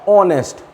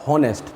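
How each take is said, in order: First: The word starts directly with a vowel. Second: The word starts with an h sound. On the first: The speaker calls it right. "ऑनेस्ट ना कि हॉनेस्ट" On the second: The speaker calls it wrong. "ना कि हॉनेस्ट"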